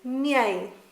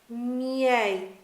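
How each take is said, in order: First: The word is said quickly as one smooth syllable. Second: The word is said at a medium speed. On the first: "progressively say it faster" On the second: "progressively say it faster"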